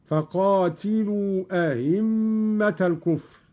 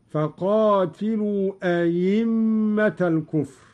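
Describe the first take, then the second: First: أئمة with the second hamza softened toward a; eased hamza. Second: أئمة said ayimma with a pure ya; hamza turned ya. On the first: Teacher demonstrating Qalun's tashil of the hamza. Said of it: "هكذا". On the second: Teacher demonstrating Qalun's ibdal of the hamza to ya. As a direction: read أئمة as ayimma, no added alif. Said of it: "والتسهيل والإبدال لغتان". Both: Shown as a demonstration.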